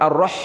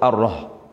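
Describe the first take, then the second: First: The h sound comes from mid-throat. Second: The h sound comes from deep in the throat. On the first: The speaker calls it right. "ar-rah tengah" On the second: The speaker calls it wrong. "maka bertukar makhraj"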